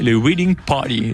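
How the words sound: It is said with an English-style accent. "pardonnez-moi mon accent anglais"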